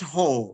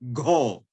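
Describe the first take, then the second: First: The syllable starts with a plain h sound. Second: The syllable starts with a g sound. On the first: The speaker calls it wrong. "It is not ho" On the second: The speaker calls it right. "but go go"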